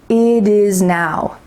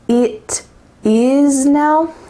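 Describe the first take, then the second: First: The T in 'it' sounds like a soft D. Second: The T in 'it' is a crisp T sound. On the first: The speaker calls it right. "we're going to slide into a D sound" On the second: The speaker calls it wrong. "Does it sound like it is now? No"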